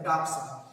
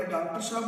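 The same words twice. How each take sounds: First: डॉक्टर साहब run together as "daak-saab"; everyday clipped form of डॉक्टर साहब, said "daak-saab"; colloquial contraction. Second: Said in the usual way. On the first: Shown as a demonstration. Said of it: "आज सीधे सीधे क्या कहते हैं". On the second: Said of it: "तो पहले डॉक्टर साहब बुलाते थे".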